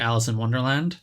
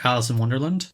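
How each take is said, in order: First: Wonderland ends with a full 'land' syllable. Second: Wonderland ends reduced, like a place name.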